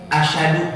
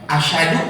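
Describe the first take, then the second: The two takes are said the same way.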